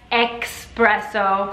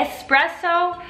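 First: The word begins with an 'ex' sound. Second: The word begins with an 'es' sound. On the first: "molti dicono espresso, come se fosse una ex" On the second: "invece di dire espresso"

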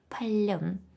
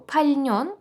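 First: Only an l sound is heard in the middle. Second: An n sound follows the l in the middle. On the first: "що вимовляється як пальон" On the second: "І останнє слово пальньон"

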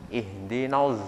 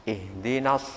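The two takes are said the same way.

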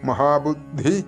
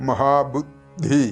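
The two takes are said the same way.

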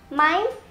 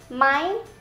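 Both takes have the same delivery.

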